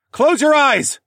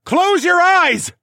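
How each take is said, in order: First: High, loud urgent bellow; bellowed warning. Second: Drawn-out, very high scream; screamed warning. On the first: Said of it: "I bellowed from above". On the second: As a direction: scream it slowly at full force. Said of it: "I screamed again". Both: Acted.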